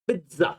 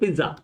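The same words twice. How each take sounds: First: The word is said in a fancy, stylish way. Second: The word is said in a plain, simple way. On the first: This is how the other person says it. The speaker calls it wrong. "तुम जो बोलते हो अपनी सेंसी में" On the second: This is how ordinary people say it. The speaker calls it right. "हम तो simple में क्या बोलते हैं?"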